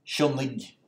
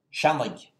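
First: "shunnig", first syllable stressed with the "shun" vowel. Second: "shannig", first syllable stressed with an open A. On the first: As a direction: stress the opening of "shunnig", ending in a hard g. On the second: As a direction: stress the "shan" in "shannig", ending in a hard g. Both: Shown as a demonstration. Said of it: "stress would remain on the first syllable".

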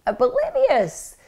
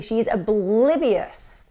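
First: "Oblivious" high and slow, stretched out; drawn-out emphasis. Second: Said in the usual way. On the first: Real, not acted. Narrator stressing the mother's denial, "Oblivious" high and drawn out. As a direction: lean hard on "Oblivious", pitched up.

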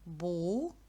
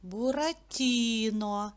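First: По складах, з паузами; syllable by syllable. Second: "Буратіно" slowly, leaning on the stressed "ті"; наголос на "ті", повільно. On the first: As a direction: say "Бу-ра-ті-но" split into syllables with clear breaks, softer. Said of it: "Давайте поділимо його на склади". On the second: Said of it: "На і". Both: Shown as a demonstration.

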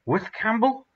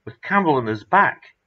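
First: High, rising disbelief; can't believe it, ask high; astonished question. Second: Louder, excited confirmation; emphatic reply. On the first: Stunned question about the rescue. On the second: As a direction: insist it really happened. Confirming the impossible rescue. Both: Acted.

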